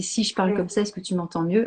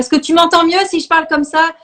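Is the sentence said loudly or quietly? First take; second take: quietly; loudly. First: The sentence is said at normal, quiet volume. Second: The sentence is shouted loudly.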